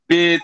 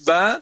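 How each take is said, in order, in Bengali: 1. অক্ষরের নামটি 'e' স্বরধ্বনি দিয়ে শেষ হয়। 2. অক্ষরের নামটি 'a' স্বরধ্বনি দিয়ে শেষ হয়। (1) "এটা হলো উর্দুর উর্দুর উর্দুর ক্যাটাগরি আর কি।" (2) "সেক্ষেত্রে সহিটাই পড়তে হবে।"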